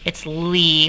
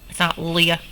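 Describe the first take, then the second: First: The vowel is an 'ee' sound. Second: The vowel is not an 'ee' sound. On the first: The speaker calls it right. "When the Y is at the end, it says E" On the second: The speaker calls it wrong. "it's not"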